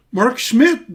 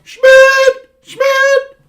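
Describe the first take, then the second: First: Said in the usual way. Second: High, loud yelled name, twice; yelling a name. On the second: Retold or imitated. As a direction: holler the name across a field. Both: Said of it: "the first name I used to yell".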